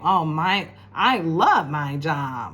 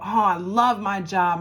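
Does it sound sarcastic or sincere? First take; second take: sarcastic; sincere. First: It sounds sarcastic and not genuine. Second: It sounds sincere and genuine.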